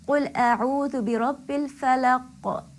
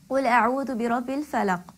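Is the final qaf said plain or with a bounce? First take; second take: bounce; plain. First: The final qaf has a bouncing echo. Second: The final qaf is plain, without an echo. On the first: The speaker calls it right. "I should be pronouncing the qaf with qalqala" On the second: The speaker calls it wrong. "when I recited this ayah, I did not give qalqala"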